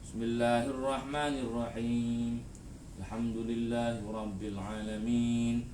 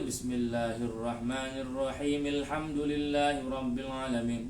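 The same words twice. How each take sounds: First: The two phrases are separated by a stop. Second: The two phrases run together without stopping. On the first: "rakaat pertama jangan disambung" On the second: "Yang kedua, pakai itu"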